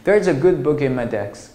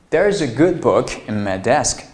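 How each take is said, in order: First: Book and in are linked without a break. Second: A short break separates book from in. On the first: The speaker calls it wrong. "但是你不要读成" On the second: The speaker calls it right. "这样就比较好听"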